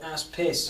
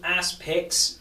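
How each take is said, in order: First: The name ends with a 'piss' sound. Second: The name ends with a 'picks' sound. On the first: This is a jokey nickname. "but we call it" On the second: This is the official name. "Its name's called"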